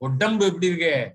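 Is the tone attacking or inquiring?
attacking. It is said in an attacking tone.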